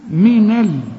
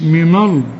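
First: The L sound is light and thin. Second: The L sound is heavy and full. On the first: The speaker calls it right. "إنما هنا من ال" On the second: The speaker calls it wrong. "مش من ال"

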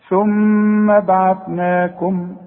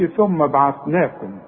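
First: The doubled m is held with nasal hum. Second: The doubled m is short without nasal hum. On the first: The speaker calls it right. "المين غنها ما دام عليها الشدة" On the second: The speaker calls it wrong. "ما تقولش ثم بعثناكم"

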